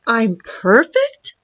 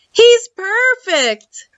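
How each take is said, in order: First: Wondering robot. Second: High, drawn-out delight; delighted boy. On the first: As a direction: ask it slowly in disbelief. Robot wonders at being called perfect. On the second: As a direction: stretch it out high, thrilled with the find. Boy delighted with old robot. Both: A narrator's reading.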